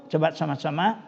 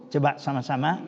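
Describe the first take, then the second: No difference in how they are said.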